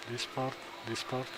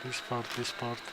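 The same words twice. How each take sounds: The two takes are said the same way.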